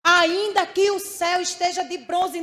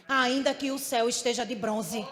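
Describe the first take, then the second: First: Much louder, full-force proclamation; preacher lifting the same line into a loud cry; preaching loud. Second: Said in the usual way. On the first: Acted. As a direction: ring it out to the church.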